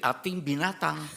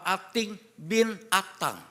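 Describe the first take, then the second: First: It is said fast with the words run together. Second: It is said slowly with separate words. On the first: Ating is an animal. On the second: Ating is the son of Atang.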